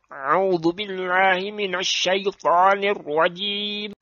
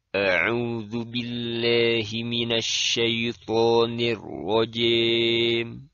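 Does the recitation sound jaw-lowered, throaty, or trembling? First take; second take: throaty; jaw-lowered. First: The sounds are pressed hard in the throat. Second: The jaw drops, bending vowels toward an e sound. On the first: "keluar huruf-huruf yang menyerupai huruf ain ... terlalu menekannya bacaan seseorang kepada tenggorokannya" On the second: "Dia jadikan rahang bagian bawahnya senantiasa dikebawahkan"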